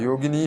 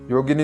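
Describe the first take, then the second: First: The final vowel is drawn out long. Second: The final vowel is kept short. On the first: The speaker calls it right. "നീട്ടേണ്ടതാണ്" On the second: The speaker calls it wrong. "പറഞ്ഞതുകൊണ്ടായില്ല"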